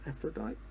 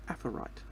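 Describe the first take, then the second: First: The word is said with a d sound. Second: The word is said without a d sound. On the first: The speaker calls it wrong. "not Aphrodite" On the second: The speaker calls it right. "I think would be the actual, actual proper way to say that"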